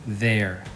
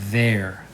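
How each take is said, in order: No difference in how they are said.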